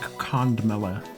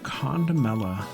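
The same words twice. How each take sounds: First: The middle 'om' sound is mostly dropped. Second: The middle 'om' sound is fully pronounced.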